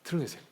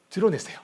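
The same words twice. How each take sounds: First: Softer urging. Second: Said in the usual way. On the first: Acted. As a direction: drop to a soft, hushed urging. Repeated exhortation, contrasted takes.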